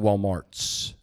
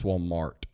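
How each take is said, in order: First: The name ends with an extra s sound. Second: The name ends without any s sound. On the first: The speaker calls it wrong. "Like Walmart's" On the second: The speaker calls it right. "It's Walmart. There's only one Mart"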